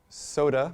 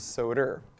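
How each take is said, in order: First: The word ends in a plain vowel. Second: The word ends with an added r sound.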